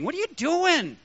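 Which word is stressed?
doing. The stress falls on the word doing. The action itself is not right. "maybe God put the emphasis on doing"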